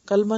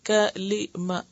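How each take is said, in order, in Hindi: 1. इस शब्द में दो अक्षर हैं: kal-ma। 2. इस शब्द में तीन अक्षर हैं: ka-li-ma। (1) "कलमा नहीं कहेंगे" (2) "ये असल में कलिमा है"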